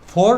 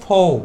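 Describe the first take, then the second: First: The final r sound is pronounced. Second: The final r sound is silent. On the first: The speaker calls it wrong. "ফোর না বলে" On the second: The speaker calls it right. "লাস্টের আটা silent থাকবে"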